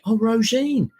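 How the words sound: It sounds lively and enthusiastic.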